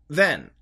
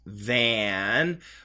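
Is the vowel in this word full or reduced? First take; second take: reduced; full. First: The vowel is reduced, sounding like 'then'. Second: The vowel is full, as in 'cat'. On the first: "when Americans say it fast, it actually sounds more like than. Like T-H-E-N" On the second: "perfect pronunciation is than"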